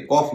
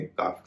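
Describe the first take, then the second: First: The vowel is a rounded 'aw' sound. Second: The vowel is an open 'ah' sound. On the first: The speaker calls it wrong. "इसे कॉफ नहीं कहेंगे" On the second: The speaker calls it right. "काफ कहेंगे"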